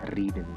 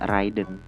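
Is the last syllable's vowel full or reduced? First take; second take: reduced; full. First: The last syllable has a reduced, weak vowel. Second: The last syllable has a full 'en' vowel. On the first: The speaker calls it right. "tapi ridden" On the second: The speaker calls it wrong. "Itu nggak dibaca ridden"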